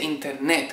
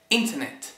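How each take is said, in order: First: The stress is on the last syllable. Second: The stress is on the first syllable. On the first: The speaker calls it wrong. "no se dice internet con el acento en la última sílaba" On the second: The speaker calls it right. "en inglés internet tiene ... el acento en la primera sílaba"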